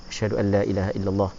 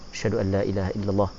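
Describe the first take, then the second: No difference in how they are said.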